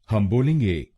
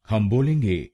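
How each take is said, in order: Both takes have the same delivery.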